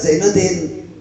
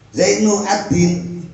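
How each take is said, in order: First: The name is one word with a doubled d. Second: The name is split into two parts. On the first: The speaker calls it right. "tidak Zainuddin" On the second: The speaker calls it wrong. "Zainu Adin gitu"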